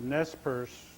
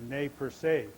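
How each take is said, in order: First: The name is said with English pronunciation. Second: The name is said with French pronunciation. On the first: This is the form the people actually use. "it's been corrupted to" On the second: This is the original form of the name. "it's a French term"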